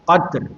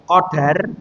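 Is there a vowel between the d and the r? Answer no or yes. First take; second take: no; yes. First: No vowel is heard between the d and r. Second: A vowel is heard between the d and r. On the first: It means measure or honor. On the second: It means destiny.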